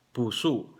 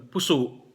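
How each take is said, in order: First: "Puso" with a long U, then a glottal stop on the O; long first vowel. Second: "puso" with a short first U; short first vowel. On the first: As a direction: lengthen the first syllable of "Puso", catch the end. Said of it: "long vowel yung first syllable at glottal stop yung last syllable". ("Puso": mahabang unang pantig, may glottal stop sa dulo) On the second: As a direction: say "puso" quickly, no lengthening. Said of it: "hindi long vowel yung first syllable". ("puso": maikling unang pantig) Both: Shown as a demonstration.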